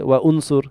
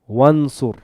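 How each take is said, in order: First: A glottal stop separates 'wa' from 'unsur'. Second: The words run together with no glottal stop. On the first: The speaker calls it wrong. "I don't say wa unsur" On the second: The speaker calls it right. "I read this wansur"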